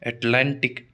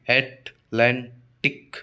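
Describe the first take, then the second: First: Said in the usual way. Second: अटलांटिक slowly split into three parts, at-lan-tik; syllable by syllable. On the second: Shown as a demonstration. Teacher showing students which syllable takes stress, अटलांटिक syllable by syllable as at-lan-tik. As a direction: break अटलांटिक into at, lan, tik with clear gaps. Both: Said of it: "तो लैन पर आएगा".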